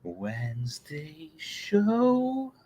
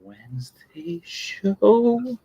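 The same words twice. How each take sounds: First: Breathy whispered slow opener; slow hushed show title. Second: Slow sung title, a little higher; drawn-out singing title. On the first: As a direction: whisper it slowly like a secret intro. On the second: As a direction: sing the show name slowly. Sung show opener jingle. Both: Acted.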